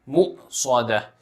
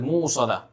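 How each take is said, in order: First: A clear glottal stop follows the first syllable. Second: A w sound follows the first syllable. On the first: The speaker calls it right. "this hamza must be made clear. It should be pronounced clearly" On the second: The speaker calls it wrong. "Don't say it as mu'sada, or else it will sound like a wow"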